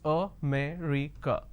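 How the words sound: The word is said with four syllables. "the correct pronunciation is, if I have to break it down to syllables"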